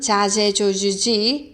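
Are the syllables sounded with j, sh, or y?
j. The syllables begin with a j sound. "멕시코 쪽은"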